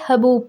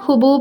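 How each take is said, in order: First: The first vowel sounds like 'a'. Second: The first vowel sounds like 'u'. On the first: The speaker calls it right. "बल्कि हबूब पढ़ना है" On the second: The speaker calls it wrong. "इसे ना हुबूब नहीं पढ़ना है"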